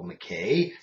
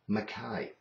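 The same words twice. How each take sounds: First: Canadian style, last syllable rhymes with day. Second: Scottish style, last syllable rhymes with eye.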